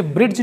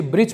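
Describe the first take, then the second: First: ब्रिज said "brid-j" with audible D; D sounded. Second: ब्रिज said "brij" with no D; silent D. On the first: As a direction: put a D before the J in ब्रिज. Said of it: "इसे ब्रिज नहीं". (ब्रिज को "ब्रिड्ज" बोलें) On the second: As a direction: go straight to the J in ब्रिज. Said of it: "इसे ब्रिज पढ़ेंगे". (ब्रिज में ड silent, सीधा ज) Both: Shown as a demonstration.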